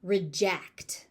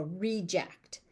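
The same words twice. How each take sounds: First: "reject" as the verb, rih-JECT; "reject" with a short first syllable, stressed at the end; stress on second syllable. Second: "reject" as the noun, REE-ject; "reject" stressed at the front with a full ee; stress on first syllable. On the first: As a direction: punch the last syllable of "reject". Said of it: "As a verb". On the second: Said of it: "as a noun". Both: Shown as a demonstration.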